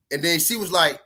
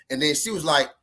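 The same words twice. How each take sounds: The two takes are said the same way.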